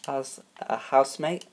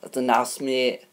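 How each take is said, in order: First: Said in the usual way. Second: Put-on Yorkshire voice; Yorkshire accent. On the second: Shown as a demonstration. Host thanking grandma's housemate pick, Yorkshire accent. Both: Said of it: "let me talk in my Yorkshire voice".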